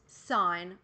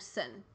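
First: The word is said with a long vowel, like 'sign'. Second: The word is said with a short vowel, like 'sin'. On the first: "Doesn't matter how you say it" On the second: "Doesn't matter how you say it"

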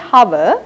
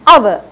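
First: The word begins with an H sound. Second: The word begins without an H sound. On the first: The speaker calls it wrong. "We don't say hover" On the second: The speaker calls it right. "we say our"

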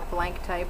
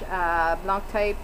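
First: Blanc is said like the English word blank. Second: Blanc is said the French way, nasal vowel. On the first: "or blank type, whatever you want to call it"

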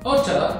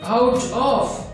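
First: The two words are run together into one. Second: The two words are said separately and clearly. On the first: This is the casual, modern way to say it. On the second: This is the standard underlying form.

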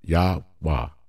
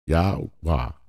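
The two takes are said the same way.

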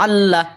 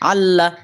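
Both takes have the same delivery.

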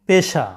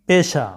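Both takes have the same delivery.

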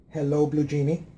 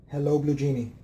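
Both takes have the same delivery.

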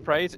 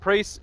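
First: The name is said like 'praise'. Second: The name is said like 'priest'. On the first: The speaker calls it right. "Praise is the way you're meant to actually pronounce it" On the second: The speaker calls it wrong. "I gotta say them correctly"

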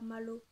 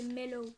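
First: The vowel sounds like the a in mallow. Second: The vowel sounds like the e in mellow. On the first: The speaker calls it wrong. "pas Mallow" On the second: The speaker calls it right. "c'est Mellow"

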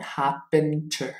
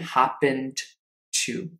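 First: The d before to is dropped. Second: The d before to is clearly pronounced. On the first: The speaker calls it right. "let me give you an example" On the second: The speaker calls it wrong. "non è happened to"

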